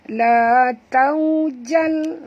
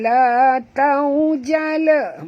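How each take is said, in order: First: The word ends cleanly on the final consonant. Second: The word ends with an added final vowel. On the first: The speaker calls it right. "Jangan balikkan dia. Jangan lantunkan dia" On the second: The speaker calls it wrong. "Bukan la taujala"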